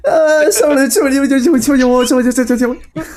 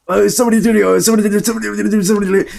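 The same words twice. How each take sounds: First: Much higher, loud squeaky gibberish Morty; fake Arabic Morty voice. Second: High, loud mock gibberish Rick; fake Arabic Rick voice. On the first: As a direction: squeal it way up high. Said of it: "The same, but in a higher pitch". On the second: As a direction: shout it like a dubbed cartoon. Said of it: "I would speak like that".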